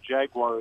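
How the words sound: It uses the common American pronunciation. This is how Americans usually say it. "Jaguar is what we Americans say"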